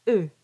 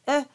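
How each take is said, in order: First: "E" through rounded lips. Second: "E" as an open, unrounded vowel. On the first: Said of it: "and then round around E". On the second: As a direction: say "E" before rounding it. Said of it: "So think of E". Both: Shown as a demonstration.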